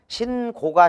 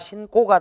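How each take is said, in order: First: The second syllable starts with a plain g. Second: The second syllable starts with a tense kk.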